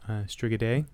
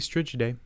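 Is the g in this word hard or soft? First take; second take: hard; soft. First: The g is pronounced as a hard g. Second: The g is pronounced as a soft g. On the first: "I think it's a hard G there" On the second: "or it could be"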